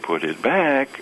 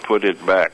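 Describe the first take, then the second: First: A sharp, startled melody that moves in pitch. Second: All on one flat note, sounding menacing. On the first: The listener was just caught doing something. "it's like I caught you with your hand in a cookie jar" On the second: It is a warning of consequences. "if you say it all on the same note, ... it's ominous and threatening"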